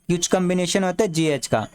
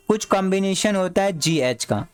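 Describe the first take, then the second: No difference in how they are said.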